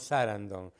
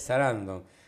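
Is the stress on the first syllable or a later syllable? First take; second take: first syllable; later syllable. First: The stress falls on the first syllable. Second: The stress falls on a later syllable. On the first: The speaker calls it wrong. "le decimos Sarandon, caemos en error de esdrujulizar" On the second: The speaker calls it right. "y en realidad es Sarandon"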